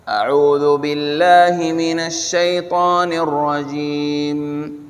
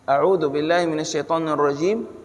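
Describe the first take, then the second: First: It is said at a normal, full volume. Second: It is said in a small, quiet voice.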